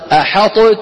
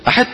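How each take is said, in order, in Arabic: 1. تُنطق الطاء منفصلة قبل التاء. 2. تتلاشى الطاء في صوت تاء مشددة. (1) "ولو أظهرنا لقلنا" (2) "ولو أدخلناها لقلنا أحدت"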